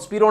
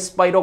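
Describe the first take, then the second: First: The first vowel sounds like 'ee'. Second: The first vowel sounds like 'eye'. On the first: The speaker calls it wrong. "स्पीरो नहीं है" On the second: The speaker calls it right. "स्पाइरो compound है"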